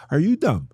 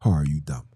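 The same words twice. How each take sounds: First: Loud, high "Are you dumb", sharp fall at the end; mock-incredulous high take. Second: Low-pitched "Or are you dumb", dropped right down; low deadpan take. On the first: Catchphrase, high then low take. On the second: Pretend. Catchphrase repeated in low voice.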